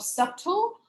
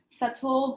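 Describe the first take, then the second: First: The b sound is pronounced aloud. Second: The b sound is left silent. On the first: The speaker calls it wrong. "students cannot pronounce them correctly ... like this" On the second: The speaker calls it right. "we have some silent letters in English"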